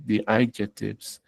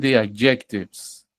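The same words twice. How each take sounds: First: "adjectives" re-said carefully as the corrected form; softer, careful correction of "adjectives"; corrected pronunciation. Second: Said in the usual way. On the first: Shown as a demonstration. ("adjectives" con pronunciación corregida) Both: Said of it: "más bien".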